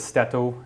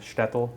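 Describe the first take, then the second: First: The final L sound is said like a W. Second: The final L sound is a clear L. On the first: This is how a local dialect speaker says it. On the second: This is the usual way to say it.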